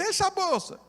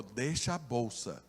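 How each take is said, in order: First: Much higher, frantic wife's cry; panicked plea. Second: Low, soft and slow gunman's order; quiet threat. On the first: Terrified wife begging her husband to give up the bag. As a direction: squeal it out in terror. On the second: Robber quietly ordering the pastor to leave the bag. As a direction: say it cold and quiet, like a gun is pointed. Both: Retold or imitated.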